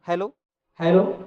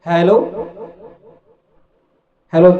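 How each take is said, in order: First: The voice has a lighter echo effect. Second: The voice has a heavier echo effect. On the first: "बहुत ही अच्छा तरीके से यहाँ पे इको आ रहा है" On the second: "इफेक्ट्स का इको थोड़ा बढ़ाता हूँ"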